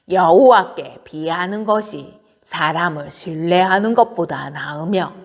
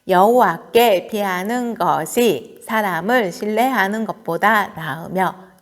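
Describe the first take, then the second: First: It is read in an old woman's voice. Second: It is read in an ordinary adult voice.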